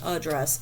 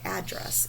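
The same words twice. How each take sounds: First: The first vowel is a weak schwa. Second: The first vowel is a full 'a' sound. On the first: "Our A gets that schwa on it because we are saying address" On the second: "Sometimes I say address"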